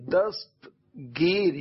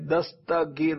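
First: The word is said as dast-gir, tightly joined. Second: The middle of the word is said another way. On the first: The speaker calls it right. "یہ صحیح ادائیگی ہے" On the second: The speaker calls it wrong. "دستگیر نہیں"

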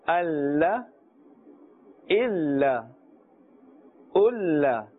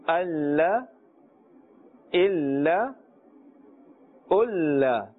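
Both takes have the same delivery.

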